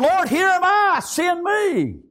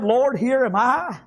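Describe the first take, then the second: First: High, ringing cry to heaven; fervent calling out. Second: Said in the usual way. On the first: Acted. Preacher as Isaiah volunteering to God, fervent cry. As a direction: call it out as a preacher voicing a prophet. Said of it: "Isaiah said". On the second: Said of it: "Have you said".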